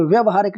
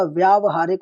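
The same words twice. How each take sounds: First: व्यवहारिक with a short first "vya"; wrong short vowel. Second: व्यावहारिक with a long first "vyaa"; correct long vowel. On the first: Teacher rejecting a spelling, short "vya" in व्यवहारिक. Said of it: "नहीं होता". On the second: Teacher giving the correct spelling, long "vyaa" in व्यावहारिक. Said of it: "होता है". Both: Shown as a demonstration.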